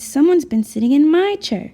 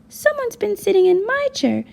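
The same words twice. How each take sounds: First: A medium-sized, middle-pitched voice. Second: A small, high voice. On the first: "in her medium-sized voice" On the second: "in his small voice"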